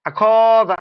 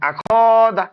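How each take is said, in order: No difference in how they are said.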